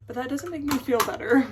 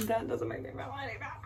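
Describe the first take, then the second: First: Louder, pushing the words out; a frustrated outburst; emphatic. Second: Soft, quick, through a laugh; a giggly, softer echo of the complaint. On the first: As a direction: press hard on "me" in "make me feel better". Frustrated about missing boyfriend. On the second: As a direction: laugh at yourself as you repeat it. Laughing at herself after outburst. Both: Real, not acted.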